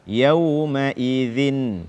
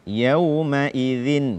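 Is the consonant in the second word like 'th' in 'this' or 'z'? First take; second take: th; th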